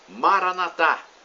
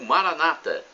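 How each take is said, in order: First: The stress falls on the final syllable. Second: The stress falls on the second-to-last syllable. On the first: This is how Catholics say it. "conforme dizemos nós católicos" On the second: This is how Protestants say it. "como dizem nossos irmãos protestantes"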